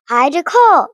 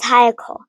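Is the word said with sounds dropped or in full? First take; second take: full; dropped. First: The word is said in full, three syllables. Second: The word is said with sounds dropped. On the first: The speaker calls it right. "three syllables" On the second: The speaker calls it wrong. "she says hyacol"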